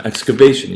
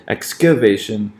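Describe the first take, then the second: First: Excavation with secondary stress on EX, weak middle, main stress on VA; EX-cuh-VA-tion, strongest on VA in excavation; two-oh-one stress. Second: Excavation with two stresses side by side, on second and third syllables; wrong adjacent stresses. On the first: Teacher demonstrating the natural pattern, excavation stressed two-oh-one. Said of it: "we'll have two oh one". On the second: Teacher showing students an unnatural rhythm, excavation with two successive stresses. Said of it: "it would sound weird". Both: Shown as a demonstration.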